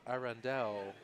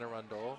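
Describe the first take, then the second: First: It is said in a fancy, affected way. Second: It is said in a plain, local way. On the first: This is how navigation systems mispronounce it. The speaker calls it wrong. "it'd be like Arundel or something like that. it make it sound very fancy" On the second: This is how locals say it. The speaker calls it right. "like Anne Arundel"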